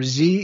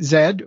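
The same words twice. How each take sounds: First: It is said the American way, as zee. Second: It is said the British way, as zed.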